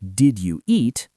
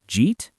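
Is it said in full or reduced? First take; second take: full; reduced. First: All three words are said fully and separately. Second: The words are squeezed into one short syllable. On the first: "not dictionary forms" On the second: "Learn spoken forms"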